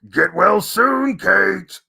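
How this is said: It is said in an exaggerated, crazy put-on voice. "the most crazy Alex voice"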